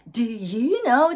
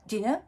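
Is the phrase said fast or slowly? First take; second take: slowly; fast. First: It is said slowly with every word emphasized. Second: It is said very fast with the words run together. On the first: The speaker is strongly pressing whether the listener knows. "すごい強調したときになります" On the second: The speaker is simply asking whether the listener knows. "すごく早いんですよ"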